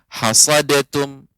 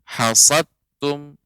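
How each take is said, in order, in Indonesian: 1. Ada vokal yang disisipkan di antara d dan t. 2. Huruf d dan t menyatu tanpa vokal.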